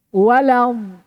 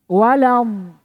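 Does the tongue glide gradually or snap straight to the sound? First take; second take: gradually; gradually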